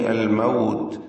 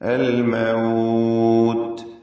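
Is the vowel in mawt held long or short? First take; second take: short; long. First: The vowel in the second word is kept short. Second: The vowel in the second word is held long. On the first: "എന്ന് പറഞ്ഞ് മതിയാക്കുകയും ആവാം" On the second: "നാല് ഹറക്കത്തിന്റെ അളവിലൊക്കെ ദീർഘിപ്പിച്ചുകൊണ്ട്"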